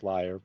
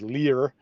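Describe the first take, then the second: First: The word sounds like 'liar', with a long i. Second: The word sounds like 'leer', with an ee sound. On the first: This is the standard word. "it would really be pronounced liar" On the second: This mocks a commenter's misspelling as a joke. "I say leer to distinguish"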